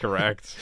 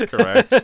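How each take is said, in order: First: Said in the usual way. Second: High, loud emphatic repeat. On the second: Real, not acted. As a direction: belt it out the second time.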